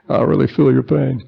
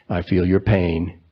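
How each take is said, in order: First: A mock Bill Clinton, feeling the pain; Bill Clinton impression. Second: Said in the usual way. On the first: Preacher jokingly imitates Bill Clinton in a higher voice. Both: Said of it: "I was gonna do a Bill Clinton impression here".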